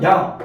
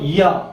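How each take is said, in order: First: The vowel glides smoothly as one sound. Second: The vowel is split into two separate sounds. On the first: The speaker calls it right. "그냥 야 이렇게 할 거니까" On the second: The speaker calls it wrong. "따로따로 해서 이야 이렇게 하면"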